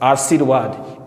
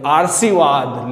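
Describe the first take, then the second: First: The r sound comes before the v sound. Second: The r sound comes before the sh sound. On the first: The speaker calls it right. "शुद्ध शब्द कौन सा होता है" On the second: The speaker calls it wrong. "आशीर्वाद को रे लगा देते हैं से पर, यह हो जाता है गलत"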